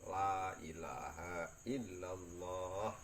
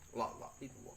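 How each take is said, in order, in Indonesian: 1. Diucapkan dengan tenang dan napas teratur. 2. Diucapkan dengan tergesa-gesa dan suku kata saling menyambung. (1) "Nek dzikire kalem, ... Nafase ya teratur" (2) "dzikire keras tok seru tok tapi ora kalem. Dadi keliput-liput"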